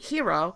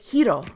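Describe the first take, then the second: First: The r is an English r sound. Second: The r is a soft, lightly rolled sound. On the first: "in English, you would pronounce it Hero" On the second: "she pronounces it Hiro ... a very soft roll on the R"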